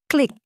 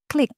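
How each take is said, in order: Both takes have the same delivery.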